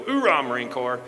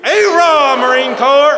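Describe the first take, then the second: First: Said in the usual way. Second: Full-force, high Marine battle cry; loud boisterous cheer. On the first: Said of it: "I want everybody to go". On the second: Shown as a demonstration. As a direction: shout it out long and high for the whole room. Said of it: "in a very loud and boisterous manner".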